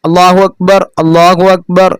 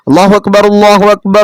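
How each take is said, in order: First: Each phrase is said separately with a break. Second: Both phrases are joined together without a break. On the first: This is how the call to prayer is said. "അങ്ങനെ ഒറ്റയായിട്ട്" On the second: This is how the call to start prayer is said. "അങ്ങനെ ചേർത്തി"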